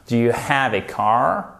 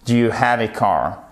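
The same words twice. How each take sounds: First: "have" with a clearly breathed H; "have" pronounced with an audible H, rising at the end. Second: Said in the usual way. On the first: Shown as a demonstration. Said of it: "faites bien le H ici". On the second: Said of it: "And do you have a car?".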